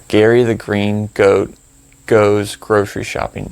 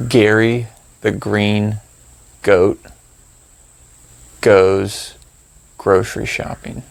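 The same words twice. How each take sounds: First: Said in the usual way. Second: Slow phrase with pauses between words. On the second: Shown as a demonstration. Meditation guide making up a random phrase for listeners, slow and halting. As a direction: spell the phrase out slowly, pausing after goat and goes.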